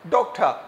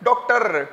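First: The final R is barely pronounced. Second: The final R is pronounced strongly. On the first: The speaker calls it right. "Should be like" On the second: The speaker calls it wrong. "हम लोग कहते हैं"

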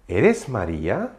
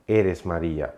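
First: The pitch rises at the end. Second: The pitch falls at the end. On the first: It asks whether the listener is that person. "интонацию делаем там наверх" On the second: It states who the listener is. "это ты Мария"

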